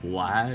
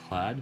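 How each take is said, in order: First: It is said with a hard, booming American sound. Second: It is said softly from deep in the throat. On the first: The speaker calls it wrong. "if I pronounced it like America, it'd be like Vlad" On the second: The speaker calls it right. "I'm kind of doing that from like deeper in my throat"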